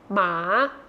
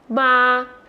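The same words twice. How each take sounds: First: The pitch rises from low to high. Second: The pitch stays level in the middle.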